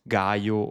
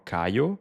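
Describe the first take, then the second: First: The name begins with a hard G sound. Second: The name begins with a hard K sound. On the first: "you can pronounce it Gaio" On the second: "or Cayo"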